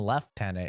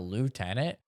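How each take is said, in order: First: The word has a British pronunciation. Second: The word has an American pronunciation.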